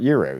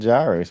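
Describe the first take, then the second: First: The word begins with a 'y' sound. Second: The word begins with a 'j' sound. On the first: The speaker calls it right. "it's pronounced year roast" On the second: The speaker calls it wrong. "I just thought it was gyros"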